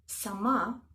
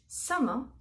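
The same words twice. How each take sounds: First: Sama with the stress on the final ma; Russian stress shift. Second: Sama stressed on the first syllable; Arabic stress. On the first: Teacher showing the Russian word, stress moved to the end. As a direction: stress the last syllable: saMA. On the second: Teacher showing the Arabic word for sky, stress on SA. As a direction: lead with SA, let ma fall away. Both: Shown as a demonstration. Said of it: "we change the stress".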